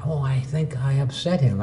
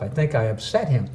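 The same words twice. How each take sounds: First: Soft thought to self; half-whispered worry; quiet inner thought. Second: Soft muttered to self; quiet dawning worry; quiet inner thought. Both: Retold or imitated. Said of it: "I said to myself".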